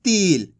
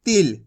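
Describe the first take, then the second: First: तिल with a long drawn-out ee, like teel; stretched vowel. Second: तिल with a short i, not drawn out; short vowel. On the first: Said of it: "अगर खींच के पढ़ोगे". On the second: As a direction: keep the vowel in तिल brief, falling away. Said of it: "कम खींच के पढ़ेंगे". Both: Shown as a demonstration.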